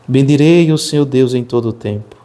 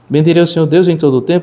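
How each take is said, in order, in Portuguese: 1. É lido devagar, com uma cadência medida. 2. É lido apressadamente, sem uma cadência medida. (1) "É a cadência que me vai fazendo contemplar de verso em verso" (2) "Eu não posso rezar o salmo, vou repetir, nesse, nesse formato"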